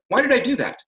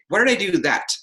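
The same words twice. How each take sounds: First: The final T is soft and unemphasized. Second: The final T is hard and strongly emphasized. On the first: The speaker is open to an answer. "The other one says" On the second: The speaker demands a definite answer. "I put extra emphasis on that T"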